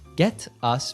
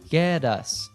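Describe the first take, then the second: First: The t in 'get' is a clear T. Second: The t in 'get' is a soft D.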